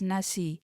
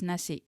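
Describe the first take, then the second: First: The word ends openly on the final vowel. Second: The word ends with a soft clipped k sound. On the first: "Some people do say it as nasi" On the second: "most of us colloquially will pronounce it as nasi"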